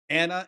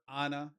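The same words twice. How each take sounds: First: The first vowel sounds like the vowel in 'and'. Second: The first vowel sounds like the vowel in 'on'. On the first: "as in and" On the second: "as in on"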